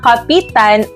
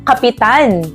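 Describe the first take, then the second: First: The stress falls on the second-to-last syllable. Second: The stress falls on the last syllable. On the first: To cling to or hold onto. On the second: A ranking military or ship officer.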